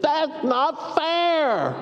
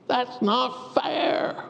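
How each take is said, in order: First: Slow, high, drawn-out whine; whining. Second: Slow, drawn-out whine; whining. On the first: Lame man whining to Jesus, slow and high. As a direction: stretch it out like a sulky child. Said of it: "when we're whining". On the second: Preacher voicing everyone's whine in hard times, slow. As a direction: drag it out like a pouting child. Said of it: "when we're whining, that's what we say". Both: Acted.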